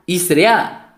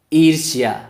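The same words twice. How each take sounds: First: ईसर्या said with स in place of र्ष, the wrong way; wrong pronunciation. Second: ईर्ष्या with the र sounded before ष्या; correct pronunciation. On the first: Teacher showing the wrong way: ईसर्या said with स. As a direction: say ईसर्या the way students get it wrong. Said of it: "ये तो wrong हो जाएगा". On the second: Teacher showing the right way: ईर्ष्या, र before ष्या. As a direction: say ईर्ष्या as ईर्-ष्या, र first. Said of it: "रा का उच्चारण होगा पहले श्या के". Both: Shown as a demonstration.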